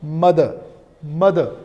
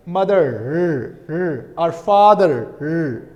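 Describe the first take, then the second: First: "mother" ending on a plain schwa, no R; non-rhotic. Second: "mother" and "father" with a drawn-out final R; rhotic. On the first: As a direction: leave the R off the end of "mother". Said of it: "R sound is not present here". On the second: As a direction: hold the R at the end of "mother" and "father". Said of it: "Rauticity is present". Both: Shown as a demonstration.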